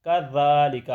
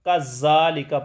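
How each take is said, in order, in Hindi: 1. बीच का व्यंजन नरम th ध्वनि है। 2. बीच का व्यंजन सादा z ध्वनि है। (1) "अब ये अरबी में है इसको ज़ाल पढ़े हैं" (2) "ये बहुत बड़ी गलती है"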